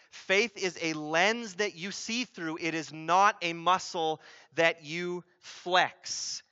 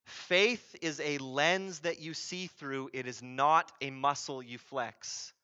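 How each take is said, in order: First: Slow, deliberate "lens", pauses before "flex"; emphatic repetition. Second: Said in the usual way. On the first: Shown as a demonstration. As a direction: drive home "not a muscle", word by word, setting "flex" apart. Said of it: "Hear that". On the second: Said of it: "wake up and hear this".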